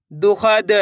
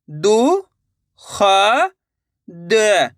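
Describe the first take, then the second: First: Said in the usual way. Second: दु, ख, द with long gaps between; syllable by syllable. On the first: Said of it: "direct मात्रा का उच्चारण करके पढ़ेंगे". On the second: Shown as a demonstration. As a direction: sound out दु, ख, द separately. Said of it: "एक एक अक्षर का उच्चारण करके". (दु, ख, द एक-एक अक्षर रुक-रुक कर)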